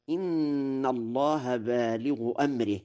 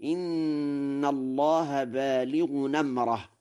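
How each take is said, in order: First: "بالغ أمره" without tanween, ending amrih; common reading. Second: "بالغ نمره" as balighun amrahu, slow; Warsh reading with tanween. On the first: Lecturer citing the verse before Warsh's variant, common reading. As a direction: join "بالغ" straight to "أمره", ra with kasra. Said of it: "قرأ ورش". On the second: Lecturer demonstrating Warsh's variant, tanween and open ra. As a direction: nunate "بالغ", ra with fatha in "نمره". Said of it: "بالتنوين ونصب الراء وضم الهاء". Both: Shown as a demonstration.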